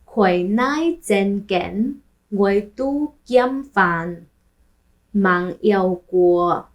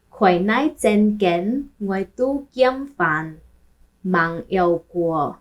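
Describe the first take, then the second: No difference in how they are said.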